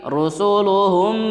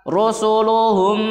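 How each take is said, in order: Both takes have the same delivery.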